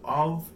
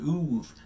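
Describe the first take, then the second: First: The vowel is short and unrounded. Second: The vowel is long and lip-rounded. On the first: The speaker calls it right. "It's a more of a U sound" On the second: The speaker calls it wrong. "it was more of an oof"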